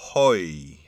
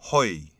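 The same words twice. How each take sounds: First: It is said slowly. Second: It is said at normal speed.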